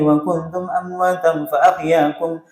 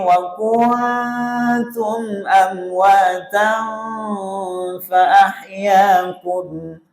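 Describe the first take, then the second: First: The nasal hums are cut short, not held. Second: The nasal hums are held for their full length. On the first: The speaker calls it wrong. "Lancar. Tapi salah dengung-dengungnya gitu ya" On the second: The speaker calls it right. "Jadi mestinya"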